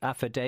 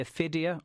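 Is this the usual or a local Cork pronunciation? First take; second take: local Cork; usual. First: The name is said with a local Cork pronunciation. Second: The name is said in the usual way. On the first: "depending on what part of Cork you might pronounce it" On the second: "It's called the Aphidia"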